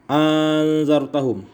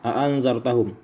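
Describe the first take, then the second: First: A long vowel precedes the softened glottal stop. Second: Both glottal stops are pronounced fully. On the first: "wa idkhali alifin bainal musahhalati wal ukhra" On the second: "bitahqiqil hamzatain, dengan mentahqiqkan atau menetapkan dua hamzah"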